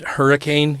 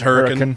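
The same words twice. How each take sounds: First: It is said the usual, standard way. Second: It is said the local Utah way.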